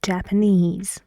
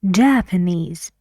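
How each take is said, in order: First: The stress is on the last syllable. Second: The stress is on the first syllable. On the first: The word stands on its own. "the stress goes on the last syllable in the words, like Japanese" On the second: The word comes right before a noun. "the right stress for the Japanese for this word is on the first syllable"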